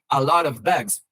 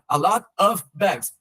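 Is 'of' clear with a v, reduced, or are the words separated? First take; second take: clear v; separated. First: The words run together with a clear v sound. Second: Each word is said separately with breaks between. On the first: The speaker calls it right. "enfatizando um V" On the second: The speaker calls it wrong. "Só não separa. ... Não"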